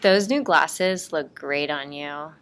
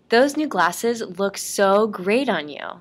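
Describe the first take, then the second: First: It is said in a flat, bored voice. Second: It is said in a lively, excited voice. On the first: The compliment is not really meant. The speaker calls it wrong. "in a bored voice" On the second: The compliment is sincerely meant. The speaker calls it right. "in an excited"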